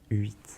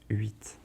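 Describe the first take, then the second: Both takes have the same delivery.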